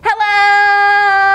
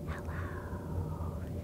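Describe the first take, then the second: First: It is said very loudly. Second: It is said very quietly.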